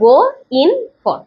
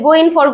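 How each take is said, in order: First: It is said slowly, each word kept apart. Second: It is said quickly, words running together. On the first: "আলাদা আলাদা করে বলে" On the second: "গো ইন ফর কে যদি একটু দ্রুত বলি"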